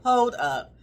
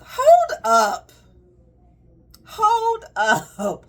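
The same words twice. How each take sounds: First: Laughing. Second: High, loud call to stop; loud hold up. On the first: Third take, with a laugh. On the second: Mo halting a client's unsolicited advice, loud and high. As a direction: throw up a hand and halt them loudly. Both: Real, not acted.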